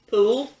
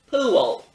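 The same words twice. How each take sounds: First: The word is said as one syllable. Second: The word is said as two syllables. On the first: "All these words have one syllable" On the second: "give these and other words two syllables? Like this"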